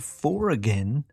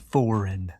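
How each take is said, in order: First: Every silent letter is sounded out. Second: The silent letters stay silent. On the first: "if you hear" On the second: "that means"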